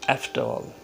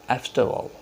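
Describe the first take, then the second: The two takes are said the same way.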